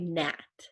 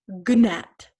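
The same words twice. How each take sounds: First: The word begins with an N sound. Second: The word begins with a hard G sound. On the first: The speaker calls it right. "So we just say gnat" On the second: The speaker calls it wrong. "the G is silent, so we don't say gnat"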